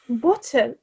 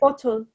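First: The word is said in a British accent. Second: The word is said in an American accent. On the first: "and then British English" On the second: "saying words in American English"

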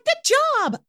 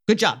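First: It is said in a high-pitched voice. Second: It is said in a low-pitched voice. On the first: The speaker calls it wrong. "I sound so annoying" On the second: The speaker calls it right. "you definitely want to lower your pitch"

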